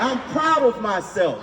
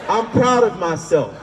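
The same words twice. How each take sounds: First: It is said with high energy and confidence. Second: It is said with ordinary, lower energy.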